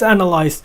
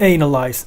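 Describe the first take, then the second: First: The word is said with an English accent. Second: The word is said with a Finnish accent. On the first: The speaker calls it right. "I said it analyze right" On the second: The speaker calls it wrong. "We always say it analyze"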